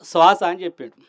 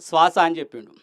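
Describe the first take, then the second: Both takes have the same delivery.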